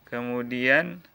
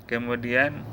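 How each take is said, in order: No difference in how they are said.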